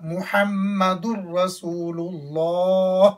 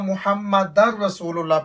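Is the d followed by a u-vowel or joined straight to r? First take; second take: u-vowel; joined. First: The d carries a u-vowel before the r. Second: The d joins straight into the r. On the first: The speaker calls it right. "در نہیں ہوگا بلکہ دال دو پیش را" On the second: The speaker calls it wrong. "بہت سے لوگ یہاں محمد الرسول اللہ پڑھتے ہیں"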